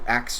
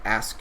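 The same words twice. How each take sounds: First: The s and k sounds are swapped, saying 'aks'. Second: The s and k sounds are in normal order, saying 'ask'. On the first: "or when people try to" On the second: "instead of"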